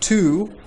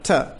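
First: The word has a full, clear vowel. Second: The word has a short, weak vowel. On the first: "I'm not really saying to" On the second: "I'm saying ta"

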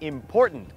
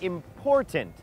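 First: The middle t sound is dropped, said quickly. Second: The middle t sound is clearly pronounced. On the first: "ถ้าฝรั่งบางคนพูดเร็วๆก็จะกลายเป็น ... ก็คือตัดทีทิ้งเลยครับ" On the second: "ออกเสียงว่า"

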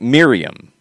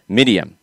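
First: The R is an English R sound. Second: The R sounds close to a D. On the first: The speaker calls it wrong. "everybody here in the United States would say Miriam" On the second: The speaker calls it right. "The R sounds more like a W, or sorry, not a W, a D"

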